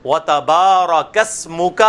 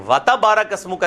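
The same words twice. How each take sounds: First: وَتَبَارَكَ said slowly with a long بَا; slow down and stretch the بَا in وَتَبَارَكَ; صحیح تلفظ، آہستہ; correct pronunciation. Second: وَتَبَارَكَ said quickly with the بَا short; غلط تلفظ; wrong pronunciation shown. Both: Shown as a demonstration. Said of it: "نہیں ہے".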